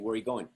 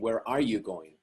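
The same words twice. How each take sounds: First: The words are run together and contracted. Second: Each word is said separately and fully. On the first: "just like in the States, you would say" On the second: "Instead of saying"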